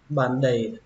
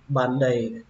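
Both takes have the same delivery.

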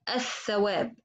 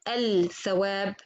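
First: The L merges into a doubled following TH. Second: The L of the article is clearly pronounced. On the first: The speaker calls it right. "I say الثواب" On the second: The speaker calls it wrong. "I didn't say الثواب. No"

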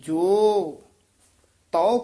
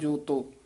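First: The two words are said separately and distinctly. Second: The two words run together as one word. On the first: The speaker calls it right. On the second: The speaker calls it wrong.

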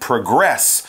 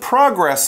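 First: The stress is on the second syllable. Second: The stress is on the first syllable. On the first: It is a verb meaning to move forward. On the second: It is a noun meaning forward movement.

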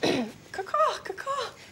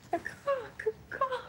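First: It is said with more energy. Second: It is said with little energy.

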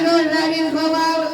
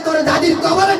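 First: It is said in an old man's voice. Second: It is said in a heated, speech-making voice. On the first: An elderly man is reciting. "মুরব্বী চাচার কবিতা আবৃত্তি করার ঢঙ্গে ছিল এরকম" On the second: A political leader is giving a speech. "যে সমাজে বক্তৃতা দিয়ে বেড়ায় নেতা মানুষ... ভাই গরম হয়ে গেছে"

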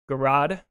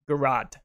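First: It is said with an English accent. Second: It is said with an English accent.

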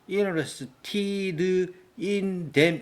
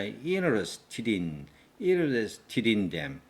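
First: Each word is said separately without linking. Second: The words run together with linked sounds. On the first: The speaker calls it wrong. "이렇게 하면 안 됩니다" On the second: The speaker calls it right. "did in them"

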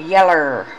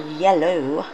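First: The word ends in an 'er' sound. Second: The word ends in an 'oh' sound.

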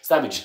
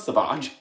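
First: The name is said plainly, like the everyday word. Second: The name is said in a posh, fancy way. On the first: The speaker calls it right. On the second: The speaker calls it wrong. "not Savage. I just had to go and make it posh"

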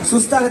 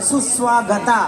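First: The second syllable is said with a 't' sound. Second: The second syllable is said with a 'v' sound. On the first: The speaker calls it wrong. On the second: The speaker calls it right.

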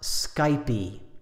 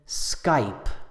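First: The word ends with an added vowel sound. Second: The word ends without a vowel sound. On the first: The speaker calls it wrong. "not Skypey" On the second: The speaker calls it right. "Skype is only one syllable. There's no E sound on the end"

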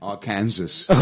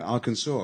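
First: The last syllable ends with an s sound. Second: The last syllable sounds like saw. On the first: The speaker calls it wrong. "I used to say" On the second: The speaker calls it right. "like it's an S-A-W, really"

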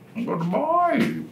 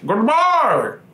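First: It is said in an impression of Bane. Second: It is said in his normal voice.

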